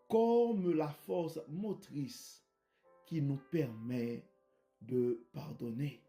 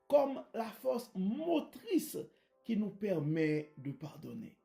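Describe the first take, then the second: First: The phrase is spoken slowly and deliberately. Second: The phrase is spoken at a normal pace.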